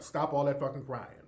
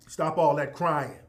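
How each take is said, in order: First: Said in the usual way. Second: Louder, firmer repeat of the order; scolding the audience, louder. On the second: Real, not acted. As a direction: hammer the order home, louder. Scolding listeners to stop crying.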